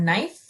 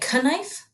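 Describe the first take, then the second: First: The word starts with an N sound, no K. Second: The word starts with a K sound before N. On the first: The speaker calls it right. "Our K is silent in the word knife" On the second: The speaker calls it wrong. "We do not say knife"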